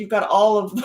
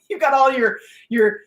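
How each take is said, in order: First: Said in the usual way. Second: Repeats it with a laugh, higher. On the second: Real, not acted. Coaching her audience, laughs mid-phrase. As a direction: let a laugh break in.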